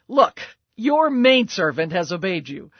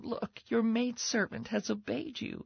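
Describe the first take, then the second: First: It is said in a sharp, scolding tone. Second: It is said in a soft, gentle tone. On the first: It is a reproach. "a sharp rebuke" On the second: It is a kind reminder. "a gentle reminder from her"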